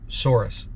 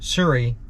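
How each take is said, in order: First: The name ends in an 'ees' sound. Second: The name ends in a plain 'ee' sound. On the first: The speaker calls it wrong. "I was saying it wrong before" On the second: The speaker calls it right. "not Souris"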